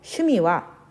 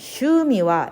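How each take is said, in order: First: The first vowel is short, one beat. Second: The first vowel is drawn out long. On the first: The speaker calls it right. "슈미와 이렇게 발음해 주세요" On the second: The speaker calls it wrong. "슈에는 장음이 없기 때문에 슈미와 이렇게 발음하면 안 되고"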